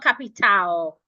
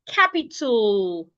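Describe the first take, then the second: First: The final syllable has a full A vowel. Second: The final syllable has a weak, reduced vowel. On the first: The speaker calls it wrong. "not capital" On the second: The speaker calls it right. "leaving out the A"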